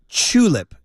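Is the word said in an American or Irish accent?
Irish. The t sounds like ch, Irish style.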